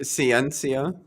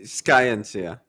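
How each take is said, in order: First: The word begins with a soft s sound. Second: The word begins with a hard sk sound. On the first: The speaker calls it wrong. "you said sci- Ciencia" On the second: The speaker calls it right. "but it'd be ski"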